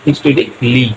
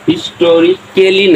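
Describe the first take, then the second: First: No vowel is sounded before the final 'ly'. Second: An extra vowel is sounded before the final 'ly'. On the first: The speaker calls it right. "শুধু উচ্চারণ silent" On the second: The speaker calls it wrong. "না"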